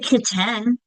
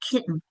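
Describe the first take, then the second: First: The second syllable has a full, clear vowel. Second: The second syllable has a weak, reduced vowel. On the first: The speaker calls it wrong. "We don't say kitten" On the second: The speaker calls it right. "we say kitten. That E is saying it"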